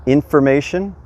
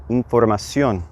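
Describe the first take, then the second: First: Said in the usual way. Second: Información with pure Spanish vowels, in-for-ma-SYON, stress on ón; información said the Spanish way, clear vowels; Spanish pronunciation. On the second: Shown as a demonstration. Teacher models información after the English word. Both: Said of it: "focus on those vowels".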